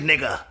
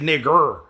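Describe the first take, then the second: First: The word ends with an open vowel sound. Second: The word ends with a hard R sound. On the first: It is the way friends address each other. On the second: It is the racist way of saying it.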